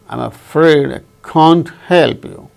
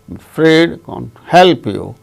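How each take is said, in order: First: Can't is stressed along with afraid and help. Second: Only afraid and help carry stress. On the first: "the speaker wanted to stress can't also" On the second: "then afraid and help, only two words are stressed"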